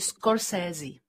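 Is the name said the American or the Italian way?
American. The name is said with American English sounds. "a pak Američani říkají"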